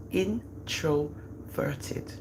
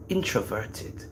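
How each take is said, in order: First: Introverted stretched very slowly and softly; drawn-out word. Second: Said in the usual way. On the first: Shown as a demonstration. Mother stressing her son's shyness, stretching Introverted out slowly. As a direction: draw out Introverted syllable by syllable, hushed.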